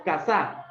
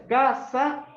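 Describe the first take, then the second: First: "casa" with the second syllable punched, like casá; stress on last syllable. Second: "Casa" with a long, punched first syllable; stress on first syllable. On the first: Teacher gives student the contrasting option, last syllable stressed. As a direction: throw the weight onto the end of "casa". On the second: Teacher makes student choose between two stresses, first syllable stressed. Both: Shown as a demonstration. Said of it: "¿Primera o segunda?".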